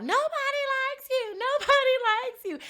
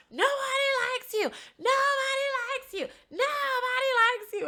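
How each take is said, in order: First: Joking mock yell. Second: High-pitched drunken heckling, imitated; mock yelling. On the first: Imitating a man lightening the situation for the target, high joking yell. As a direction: stretch it out high, making light of the taunt. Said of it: "So he's yelling out". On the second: Woman imitating a drunk housemate heckling another, high mock yelling. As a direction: chant it like a taunting yell, voice pitched way up. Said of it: "she starts yelling at Carl".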